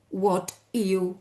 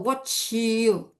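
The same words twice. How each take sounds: First: The t and y sounds stay separate. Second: The t and y merge into ch. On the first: "if you pronounce them well" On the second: "They transform it into a cha sound"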